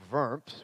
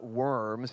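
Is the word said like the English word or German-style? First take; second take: German-style; English. First: It is said as the German town's name. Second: It sounds like the ordinary English word worms. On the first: It names a town in Germany. The speaker calls it right. "It's Worms, which is a town in Germany" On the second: It names the crawling creatures. The speaker calls it wrong. "It's spelled like worms, but it's not worms"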